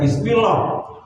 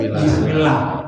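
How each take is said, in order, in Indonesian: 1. L pada Allah terdengar tebal dan gelap. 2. L pada Allah terdengar tipis dan ringan. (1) "Jangan baca" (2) "dibaca dalam tarkib tipis"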